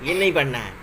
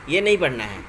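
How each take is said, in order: Both takes have the same delivery.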